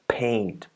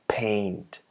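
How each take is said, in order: The two takes are said the same way.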